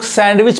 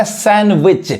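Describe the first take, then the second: First: सैंडविच with the d sounded; सैंडविच misread with audible d; wrong pronunciation. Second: सैंडविच with no d, "san-wich"; सैंडविच as "SAN-vich"; silent D. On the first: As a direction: say सैंडविच as "sand-wich". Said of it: "जो कि गलत उच्चारण है". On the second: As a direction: say सैंडविच dropping the d. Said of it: "डी silent है". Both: Shown as a demonstration.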